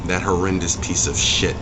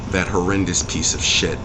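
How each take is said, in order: Both takes have the same delivery.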